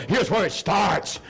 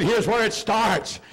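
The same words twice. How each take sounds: First: Said in the usual way. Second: Here's where it starts said slowly, each word weighted; slow emphatic repeat. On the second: Shown as a demonstration. Preacher repeating the line to the church, slow and emphatic. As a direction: repeat it slower to drive it home. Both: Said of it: "I said".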